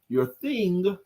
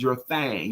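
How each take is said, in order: First: The word has the short i vowel, like king. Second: The word has the a vowel, like bang. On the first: The job you do to pay the bills. "Your T H I N G" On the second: The thing you imagine doing with your life. "your T H A N G"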